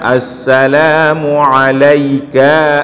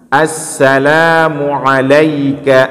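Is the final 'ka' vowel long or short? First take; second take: long; short. First: The final 'ka' is drawn out long. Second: The final 'ka' is kept short. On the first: The speaker calls it wrong. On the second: The speaker calls it right.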